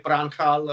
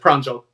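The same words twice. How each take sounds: First: The middle consonant is a breathy H sound. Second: The middle consonant is a J sound. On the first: The speaker calls it wrong. "not a H sound as it is uh, in Spanish, which is, you know, often people call me Pranjal around here" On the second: The speaker calls it right. "J is a J"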